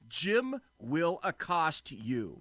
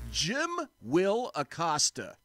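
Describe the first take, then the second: First: The ending is said as the words accost you. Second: The ending is said as the surname Acosta. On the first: The speaker calls it right. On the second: The speaker calls it wrong.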